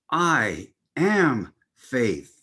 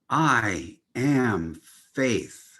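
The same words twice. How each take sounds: First: It is said firmly with an authoritative tone. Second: It is said calmly with plain energy.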